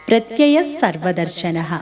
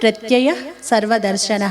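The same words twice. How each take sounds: First: The two words are joined, the ending blending in. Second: The two words are said separately, each ending kept. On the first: "కలిపి పఠించేటప్పుడు" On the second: "విడదీసినప్పుడు"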